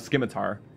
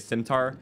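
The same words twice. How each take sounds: First: The word begins with a hard sk sound. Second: The word begins with a soft s sound. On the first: This is saying it the way it is spelled. "a lot of people used to say skim, uh, Scimitar, which that's more, you know, saying it photonically" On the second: This is how most people say it. "so I see why people say Scimitar"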